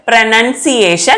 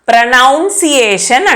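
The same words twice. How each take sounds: First: The second syllable sounds like 'nun'. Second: The second syllable sounds like 'noun'. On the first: The speaker calls it right. "TION వచ్చినప్పుడు ప్రొనౌన్సియేషన్ అనాలి" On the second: The speaker calls it wrong. "ప్రొనౌన్సియేషన్ కాదండి, అది wrong"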